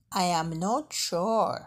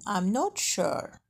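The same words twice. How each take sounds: First: Slow, "I am" as two separate words; each word of "I am not sure" on its own; full form. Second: Slow, with "I'm" as one syllable; short "I'm", long "sure"; contracted form. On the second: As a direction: say "I'm not sure" with I and am merged. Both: Shown as a demonstration. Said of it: "بالصيغة المختصرة".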